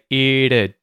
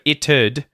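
First: The T sound is replaced by a schwa. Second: The T sound in it is pronounced. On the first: The speaker calls it right. "the T at the end of it turns into a schwa and we say it'd" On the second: The speaker calls it wrong. "instead of it'd"

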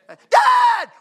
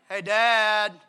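First: It is cried out urgently and loudly. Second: It is said in a relaxed, casual way.

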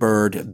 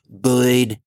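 First: It is said in a plain, non-Southern accent. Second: It is said in a thick Deep South accent.

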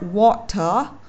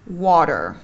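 First: The middle consonant is a clear t sound. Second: The middle consonant is a soft d-like sound. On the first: "trong tiếng Anh đọc là water" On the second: "tiếng Anh Mỹ sẽ đọc nó là water"

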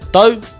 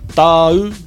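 First: The syllable is said quickly. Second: The syllable is said slowly.

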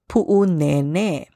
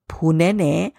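First: A glottal stop, and the final vowels are long. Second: No glottal stop, and the vowels are short. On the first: The speaker calls it right. "So the correct pronunciation is Pu'unene" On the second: The speaker calls it wrong. "this place often gets mispronounced as Punene"

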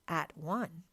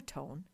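First: It is said as two separate words. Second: It is said as one joined word.

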